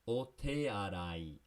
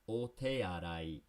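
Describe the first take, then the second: The two takes are said the same way.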